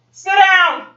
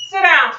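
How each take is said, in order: First: Sharp, louder, higher dog command. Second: Stern dog command; firm command. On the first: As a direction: bark the order at the dog. Commands barking dog again. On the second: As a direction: order the dog down. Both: Real, not acted.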